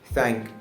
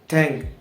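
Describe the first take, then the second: First: A clear th sound is pronounced. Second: The th sound is replaced by another sound. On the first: The speaker calls it right. "when I pronounce the th sound correctly" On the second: The speaker calls it wrong. "If I don't pronounce the th sound"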